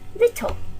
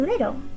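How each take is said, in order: First: It is said in a British accent. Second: It is said in an American accent. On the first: "in British English, we, we would say little" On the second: "in American English, we say little"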